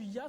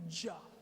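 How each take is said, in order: First: The name begins with a Y sound. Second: The name begins with a J sound. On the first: The speaker calls it right. "au lieu d'être rendu Yah" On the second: The speaker calls it wrong. "ça va être rendu Jah"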